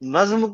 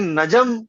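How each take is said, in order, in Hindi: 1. यह शब्द एक अक्षर में बोला जाता है। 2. यह शब्द दो अक्षरों में बँटा है।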